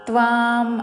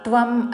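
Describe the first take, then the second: First: The vowel is held long. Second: The vowel is said short. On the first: The speaker calls it right. "తాకి వావత్తు దీర్ఘముతో" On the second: The speaker calls it wrong. "హ్రస్వము పలకకూడదు"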